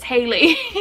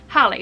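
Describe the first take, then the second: First: The first syllable sounds like 'hay'. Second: The first syllable sounds like 'hal'. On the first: This is how the singer says the name. "[name] sings it Haley, so I'm gonna say it's Haley" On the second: This is how the name looks when read from the spelling. "I read it Halley's Comet"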